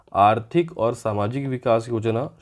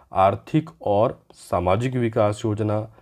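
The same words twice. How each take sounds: Both takes have the same delivery.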